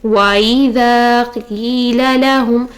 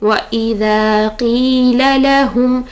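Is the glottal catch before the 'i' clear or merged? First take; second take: merged; clear. First: The 'a' and 'i' glide together without a catch. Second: The 'a' and 'i' are separated by a catch. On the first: The speaker calls it wrong. "तो यह गलत है" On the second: The speaker calls it right. "वा और ई अलग करेंगे"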